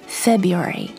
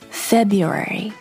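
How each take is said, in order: First: The word is said with four syllables. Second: The word is said with four syllables.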